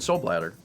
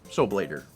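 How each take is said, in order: First: The middle vowel is short, like in bladder. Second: The middle vowel is long, like in blade. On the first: The speaker calls it wrong. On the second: The speaker calls it right.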